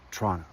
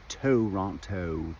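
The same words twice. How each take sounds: First: It is said in a relaxed, casual local way. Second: It is said in a stiff, overly careful way. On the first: The speaker belongs to the city. The speaker calls it right. "If you're from there, we say Toronto" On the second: The speaker is an outsider to the city. The speaker calls it wrong. "the stuffy, you know, American or probably U K or other place way"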